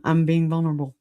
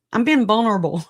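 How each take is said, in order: First: Said in the usual way. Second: "I'm being vulnerable" repeated higher and louder, stressing "being"; emphatic repeat. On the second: Real, not acted. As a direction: lean on "being" the second time.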